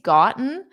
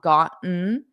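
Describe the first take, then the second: First: The middle T is clearly released. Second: The middle T is a glottal stop. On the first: "the first time I pronounced it with the T's" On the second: "I would do the glottal stop"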